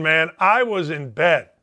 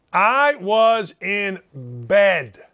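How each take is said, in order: First: Said in the usual way. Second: Very slow, each word set apart, I first; slow emphatic repeat. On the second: Shown as a demonstration. To his listeners, insisting he stayed home: slow emphatic repeat. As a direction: lean on it slowly, as if to settle any doubt.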